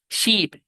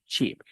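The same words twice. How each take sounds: First: High SHEEP with stretched ee; long i. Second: Softer SHEEP with quick lax ih, as ship; short i. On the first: Teacher giving words to practise, long i. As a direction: hold the ee in SHEEP long and tense. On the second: Teacher giving words to practise, short i. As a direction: keep the vowel in SHEEP short and loose. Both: Shown as a demonstration. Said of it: "yo quiero que usted practique".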